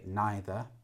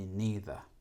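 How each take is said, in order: First: It is said the usual British way. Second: It is said the American way. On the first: "In British English, usually we say neither" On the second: "And in America, they say the neither"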